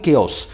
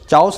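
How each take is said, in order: First: The word begins with a k sound. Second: The word begins with a ch sound. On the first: The speaker calls it right. "वैसे इसको बोला जाता है केओस" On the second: The speaker calls it wrong. "चाओस बोला नहीं जाता है"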